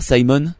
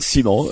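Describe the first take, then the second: First: The name is said with an English accent. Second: The name is said with a French accent. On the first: "ça est mieux en anglais" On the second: "Avec bon. Un accent très français"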